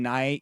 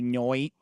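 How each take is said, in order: First: The vowel is the ordinary 'eye' sound. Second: The vowel is changed to an 'oi' sound. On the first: The speaker calls it right. "instead of saying night" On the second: The speaker calls it wrong. "you say noit"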